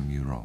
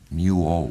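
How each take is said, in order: First: The second syllable begins with an r sound. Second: The second syllable is a bare 'oh' sound. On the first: The speaker calls it right. "le deuxième syllabe, c'est Ro. Eh bien, Muro" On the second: The speaker calls it wrong. "d'abord, je l'ai appelé Muo"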